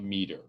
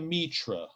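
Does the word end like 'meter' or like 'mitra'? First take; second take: meter; mitra. First: The word ends with an 'er' sound, like 'meter'. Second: The word ends with an 'ra' sound. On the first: "It might be like a meter" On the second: "That might not actually be how you pronounce that word"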